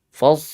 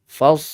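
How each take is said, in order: Both takes have the same delivery.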